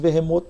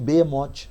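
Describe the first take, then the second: First: The name is said in its Hebrew form. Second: The name is said in its Portuguese form. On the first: "do hebraico" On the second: "no português"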